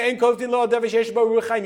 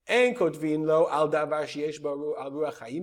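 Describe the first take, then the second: First: It is read at normal speed. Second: It is read more slowly.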